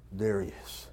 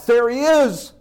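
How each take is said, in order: First: Low, soft, disbelieving; whisper-quiet wonder at first sight; awed hush. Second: High, loud, exultant; joyful cry. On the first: The father catching sight of his returning son, low and hushed. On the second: The father crying out as his son comes home, high and exultant. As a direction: shout it with overflowing joy. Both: Acted.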